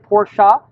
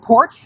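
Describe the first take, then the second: First: It is said as two syllables, final e voiced. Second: It is said as one syllable, final e silent. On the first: The speaker calls it right. "So it's two syllables. You pronounce the E" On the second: The speaker calls it wrong. "It's not porch"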